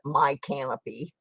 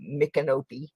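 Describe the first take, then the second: First: The name sounds like 'my canopy'. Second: The name does not sound like 'my canopy'. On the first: The speaker calls it wrong. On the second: The speaker calls it right.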